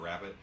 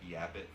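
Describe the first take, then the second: First: The word begins with an R sound. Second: The word begins with a Y sound. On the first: The speaker calls it right. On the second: The speaker calls it wrong.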